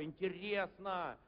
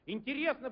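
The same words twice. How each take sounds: First: Musing low. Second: Интересно said up and quick; higher, surprised interesting. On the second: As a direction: lift the word Интересно high and bright. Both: Shown as a demonstration.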